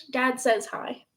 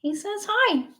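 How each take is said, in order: First: Said in the usual way. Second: Much higher cutesy pet voice; cat voice. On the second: Pretend. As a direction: speak for the cat, high and cute. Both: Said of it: "annoying cat voice".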